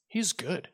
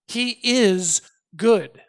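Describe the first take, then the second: First: Said in the usual way. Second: "is" drawn out and punched, louder and higher; slow "He is good", landing hard on "is"; stress on IS. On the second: Real, not acted. Preacher driving home God's nature to the congregation, emphatic stress on "is".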